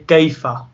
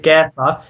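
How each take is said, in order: First: The first vowel is a gliding 'ay' sound. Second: The first vowel is a flat 'air'-like sound. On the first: The speaker calls it right. "we say kayfa" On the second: The speaker calls it wrong. "we don't say kayfa"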